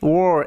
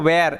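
First: The word is said in a British accent. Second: The word is said in an Indian accent. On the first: "ওই British অ্যাকসেন্টে ওয়ার এরমভাবে উচ্চারণ করে" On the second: "আমাদের Indian অ্যাকসেন্টে ওয়্যার এরমভাবে উচ্চারণ করা যায়"

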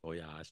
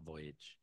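First: The word is pronounced the French way. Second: The word is pronounced the English way. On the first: It is used as a borrowed French expression. The speaker calls it right. "You say voyage" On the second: It is used as an ordinary English word. The speaker calls it wrong. "not voyage"

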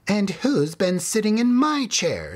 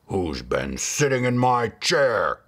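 First: It is said in a medium-sized voice. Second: It is roared in a great big voice.

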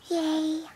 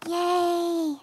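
First: It is said quietly and weakly. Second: It is said very loudly.

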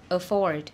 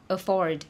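The two takes are said the same way.

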